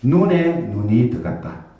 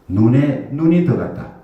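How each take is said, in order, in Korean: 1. 각 '눈'은 늘 쓰던 방언 높낮이를 가져요. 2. 두 '눈' 단어의 높낮이가 서로 바뀌었어요. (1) "눈에 눈이 들어갈 수 있죠" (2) "무슨 말입니까?"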